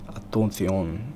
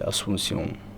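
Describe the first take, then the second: First: It is said with a Spain Spanish accent. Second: It is said with a Latin American accent. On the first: "is what Spanish people say" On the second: "Latin American people say"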